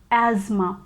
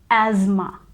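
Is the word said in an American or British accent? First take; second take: American; American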